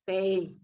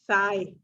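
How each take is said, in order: First: The vowel sounds like 'ay'. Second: The vowel sounds like 'eye'. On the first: The speaker calls it right. "So it is say" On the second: The speaker calls it wrong. "You said sigh"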